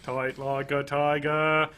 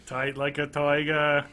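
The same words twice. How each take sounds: First: Slow Kennedy-style Boston, toight; hammy JFK impression; JFK Boston accent. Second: Slow Boston drawl, toiger; a bad JFK Boston accent. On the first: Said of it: "by JFK impersonation, I mean doing the JFK". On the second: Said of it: "Boston accent for me is doing a bad JFK impersonation".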